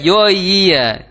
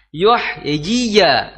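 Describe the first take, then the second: First: The two ya sounds are blurred together indistinctly. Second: Both ya sounds are pronounced clearly and distinctly. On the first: The speaker calls it wrong. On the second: The speaker calls it right.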